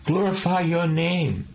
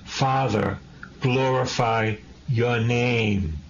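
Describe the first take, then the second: First: Glorify lifted higher, ringing out; raised proclamation. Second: Slow, drawn-out prayer to the Father; slow prayerful plea. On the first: Preacher repeating Jesus's words to the congregation, higher and ringing. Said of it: "Jesus is all about the Father". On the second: Preacher voicing Jesus praying to the Father, slow and drawn-out. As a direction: pray it slowly, lingering on glorify. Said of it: "What do I say?". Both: Shown as a demonstration.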